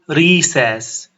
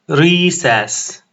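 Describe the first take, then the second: The two takes are said the same way.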